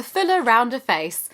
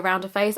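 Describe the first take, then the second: First: "fuller" punched high and loud with a falling tune; "fuller, rounder face" lifted high and louder, amused; stress on fuller, rounder. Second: Said in the usual way. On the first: Real, not acted. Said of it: "my favourite side effect on the leaflet". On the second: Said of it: "You may have noticed I do have a fuller".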